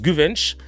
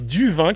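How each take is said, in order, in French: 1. Le nom commence par un G dur. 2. Le nom commence par un son D. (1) "ça se prononce Guvenç" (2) "ma mère disait Duvinck, je sais pas pourquoi avec un D"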